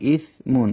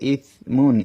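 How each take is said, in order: No difference in how they are said.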